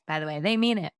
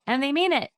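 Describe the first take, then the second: First: Said in the usual way. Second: MEAN punched high and loud, falling after; emphatic stress on MEAN. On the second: Real, not acted. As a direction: lean hard on the word mean.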